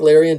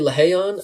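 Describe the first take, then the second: First: The name is said with an English-style r sound. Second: The name is said with a Brazilian-style r sound.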